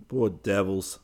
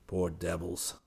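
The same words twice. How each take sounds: First: Said in the usual way. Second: Poor devils muttered softly under the breath. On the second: Acted. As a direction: mutter Poor devils to yourself walking away. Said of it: "hurried away muttering".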